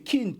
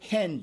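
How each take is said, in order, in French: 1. Le mot commence par un son k. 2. Le mot commence par un son h. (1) "Non, c'est kin, kina. Parce que la vraie prononciation" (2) "Ce qui nous a été traduit, translittéré, hen"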